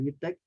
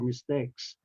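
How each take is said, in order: First: The final s sound is dropped. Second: The final s sound is pronounced. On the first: The speaker calls it wrong. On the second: The speaker calls it right.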